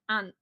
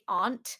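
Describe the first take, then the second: First: The vowel is short, northern style. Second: The vowel is long and drawn out.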